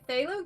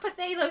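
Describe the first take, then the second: First: The word starts with no 'p' sound. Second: The word starts with a clear 'pa' sound. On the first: The speaker calls it right. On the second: The speaker calls it wrong.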